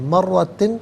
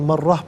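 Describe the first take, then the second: First: The word ends with the syllable tin. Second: The word ends with an h sound. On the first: The reader continues without stopping. "मर्रतिन पढ़ेंगे" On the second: The reader stops at this word. "वफ़ की सूरत में मर्रह पढ़ेंगे"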